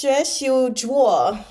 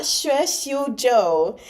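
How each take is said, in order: First: "Zhuo" said with U gliding into O; corrected pronunciation. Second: "Zhou" said with a plain O vowel, drawn out; wrong pronunciation. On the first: Reader correcting the name to "Zhuo", slow and emphatic. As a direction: slowly sound out "Zhuo", U before O. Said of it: "Just the U and the O were reversed". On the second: Reader showing the mistaken name "Zhou", slow and emphatic. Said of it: "It's not". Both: Shown as a demonstration.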